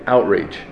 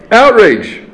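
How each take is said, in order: First: Said in the usual way. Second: Outrage punched high and loud; Outrage as one sharp loud declaration; emphatic outrage. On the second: Shown as a demonstration. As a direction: fire off Outrage like a cry of protest.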